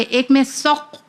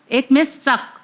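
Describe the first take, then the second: First: سق with a deep throaty ق; deep qaf. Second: سک with a light front ک; light kaf. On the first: Teacher contrasting two sounds for children, deep ق. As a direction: say سق from the back of the throat. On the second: Teacher contrasting two sounds for children, light ک. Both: Shown as a demonstration. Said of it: "دونوں میں کتنا فرق ہے".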